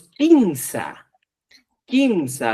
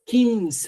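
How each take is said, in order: First: "quinza" drawn out with lengthened vowels; Cusco pronunciation. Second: "quinza" pitched high, falling at the end; correct pronunciation. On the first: Teacher showing the Cusco way, "quinza" drawn out. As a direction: stretch "quinza", letting each take fall. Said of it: "en Cusco decimos". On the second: Teacher giving the correct expression, "quinza" high and falling. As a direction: say "quinza" high and short of a drawl. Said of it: "la expresión correcta es". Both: Shown as a demonstration.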